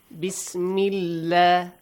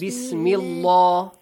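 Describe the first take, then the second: First: The 'llah' part is said thin and light. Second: The 'llah' part is said full and heavy. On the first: The speaker calls it right. "you pronounce it lightly" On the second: The speaker calls it wrong. "Do not say"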